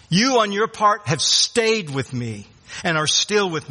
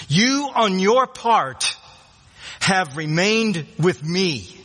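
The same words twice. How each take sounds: First: Said in the usual way. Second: "you on your part" slowed right down, "you" pitched up and leaned on hard; preacher dwells on "you on your part have remained with me", slow and emphatic. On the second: Shown as a demonstration. Preacher to congregation, stressing the verse's you, slow emphatic stress. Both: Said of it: "and, and really it's emphatic".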